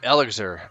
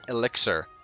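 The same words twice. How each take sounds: First: The word is said with Italian-like pronunciation. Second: The word is said with English pronunciation. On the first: The speaker calls it wrong. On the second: The speaker calls it right.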